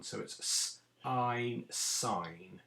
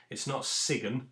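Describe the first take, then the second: First: S, ein, then sign blended; sounding out sign. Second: Sigen with a hard g, the wrong way. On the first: Teacher to class, sounding out sign slowly. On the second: Teacher to class, showing the wrong reading sigen. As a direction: say sigen as the mistake to avoid. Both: Shown as a demonstration.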